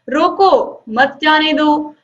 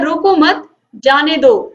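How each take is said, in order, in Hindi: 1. 'roko' के ठीक बाद विराम है। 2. 'mat' के ठीक बाद विराम है। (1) "रोक दो मत जाने दो"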